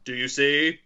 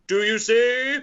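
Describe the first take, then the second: First: Said in the usual way. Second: Higher, louder, insistent question; increasing intensity. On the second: Acted. Quizmaster acting out a film line, intense. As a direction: ask it again with mounting urgency, pitch climbing. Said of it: "Man asking with increasing intensity".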